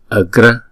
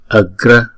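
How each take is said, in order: The two takes are said the same way.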